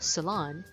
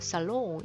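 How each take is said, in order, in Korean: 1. 마지막 음절에 'ah' 모음이 있어요. 'lahn'이에요. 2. 마지막 음절에 'o' 모음이 있어요. 'long'이에요. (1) "salon 이렇게 발음하면 되거든요" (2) "살롱 이렇게 발음하는 분들이 좀 있는데요"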